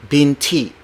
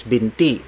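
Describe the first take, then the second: First: "binti" with a puff of air on the T; aspirated T. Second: "binti" with no puff of air on the T; unaspirated T. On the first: Teacher shows what to avoid, "binti" with aspirated T. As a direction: say "binti" like "bin-tee" with breathy T. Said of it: "not binti". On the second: Teacher pronounces the word for leg, "binti" without aspiration. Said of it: "notice when I pronounce". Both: Shown as a demonstration.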